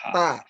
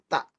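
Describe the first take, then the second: First: The vowel ends openly without a catch. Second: The vowel is cut off by a glottal catch. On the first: The speaker calls it right. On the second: The speaker calls it wrong.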